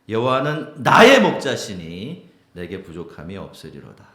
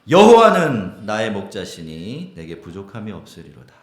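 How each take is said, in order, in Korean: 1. 강세는 '나의'에 있습니다. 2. 강세는 '여호와는'에 있습니다.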